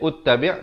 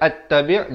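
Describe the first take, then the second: First: The word begins with a u vowel. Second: The word begins with an a vowel. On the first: "jangan baca ut-tabi'" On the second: "jangan baca at-tabi'"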